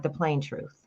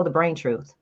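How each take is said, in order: First: Said in the usual way. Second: "brain" said with a B, a slip for plain; slip of the tongue. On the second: Real, not acted. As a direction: say "the brain truth" with a clear B. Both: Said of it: "like, the plain truth".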